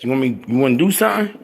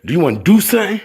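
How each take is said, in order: First: Said in the usual way. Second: "do" punched, higher and louder; "Do you wanna do something?" with a hit on the second "do"; stress on do. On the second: Shown as a demonstration. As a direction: lean hard on "do" as a challenge. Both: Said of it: "Y'all hear how I say that?".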